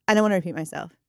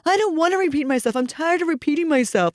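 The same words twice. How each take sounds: First: Said in the usual way. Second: Higher, hurried refusal; imitated fed-up child. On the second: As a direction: mimic a worked-up kid protesting. Child refuses again, worked up.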